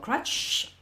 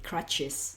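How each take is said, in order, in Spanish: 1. Termina en un silbido largo sin vocal añadida. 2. Se añade una vocal antes de la s final. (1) "parezco un neumático pinchado" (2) "a esta S le pongo antes la E"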